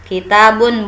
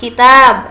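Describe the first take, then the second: First: The word ends with a final 'un' sound. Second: The word ends on a bare 'b' sound. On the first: The speaker calls it wrong. "tidak kitabun" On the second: The speaker calls it right. "buku kitab"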